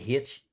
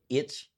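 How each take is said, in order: First: The letter is said the Catholic way. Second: The letter is said the Protestant way. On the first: "and we say H" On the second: It marks the speaker as Protestant. "Protestants say H"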